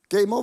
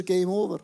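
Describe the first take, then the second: First: "Game Over" repeated louder, with a rising end; echoed louder. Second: Said in the usual way. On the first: Shown as a demonstration. Preacher repeating "Game Over" to the congregation, louder. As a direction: punch out "Game Over" louder the second time. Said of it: "ist er Game Over".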